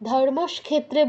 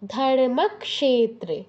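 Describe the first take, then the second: First: The middle cluster has no clear k sound. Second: A k sound is heard before the sh. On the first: The speaker calls it wrong. "ধর্মক্ষেত্রে বলা যাবে না" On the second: The speaker calls it right. "আগে ক তারপর স"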